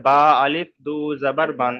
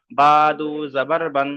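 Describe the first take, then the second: First: Alif sounded aloud; বা আলিফ দু জাবার বান with the alif pronounced; wrong reading. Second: Silent alif, বা দু জাবার বান flowing; just say বা দু জাবার বান; correct reading. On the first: Teacher repeats the wrong way to avoid. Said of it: "এরকম বলার দরকার নেই". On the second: Teacher tells students how to say it properly. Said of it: "এখানে শুধু বলবেন". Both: Shown as a demonstration.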